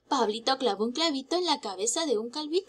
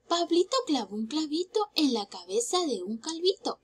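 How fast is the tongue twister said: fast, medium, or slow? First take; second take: fast; slow. First: It is said at a fast pace. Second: It is said at a slow pace. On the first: "Un poco más rápido" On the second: "primero lo vamos a hacer despacio, lento"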